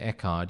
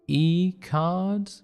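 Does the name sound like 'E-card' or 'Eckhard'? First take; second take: Eckhard; E-card. First: The name is said as 'Eckhard'. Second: The name is said as 'E-card'. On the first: "If you don't say Eckhard" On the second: "you say E-card"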